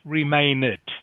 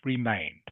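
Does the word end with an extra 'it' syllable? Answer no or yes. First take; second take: yes; no. First: The ending sounds like an extra syllable, 'it'. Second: The ending is a plain 'd' with no extra syllable. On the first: The speaker calls it wrong. "not remain it. Okay, it's not pronounced like that" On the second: The speaker calls it right. "It's pronounced remained"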